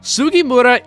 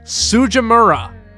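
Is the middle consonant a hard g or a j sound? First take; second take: hard g; j. First: The middle consonant is a hard g sound. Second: The middle consonant is a soft j sound. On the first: The speaker calls it right. "isn't exactly an uncommon name" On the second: The speaker calls it wrong. "managed to screw it up, having characters pronounce it as"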